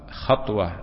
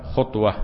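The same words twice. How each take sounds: First: The first vowel is an open 'a'. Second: The first vowel is a rounded 'u'. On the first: A single time or occurrence. "بالفتح" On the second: The space between the two feet. "بالضم"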